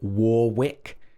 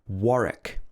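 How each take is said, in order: First: The middle W sound is pronounced. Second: The middle W sound is silent. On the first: The speaker calls it wrong. "We don't say Warwick" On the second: The speaker calls it right. "It should be Warwick"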